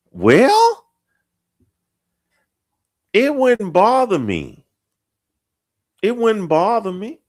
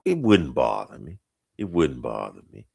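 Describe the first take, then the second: First: Very high mock falsetto; put-on falsetto. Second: Falling to a low, softer voice; put-on deep voice. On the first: Host joking it wouldn't bother him, mock falsetto. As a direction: squeak it out far above your own voice. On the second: Host correcting his answer about harsh voices, deep. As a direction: drop down deep and ease off.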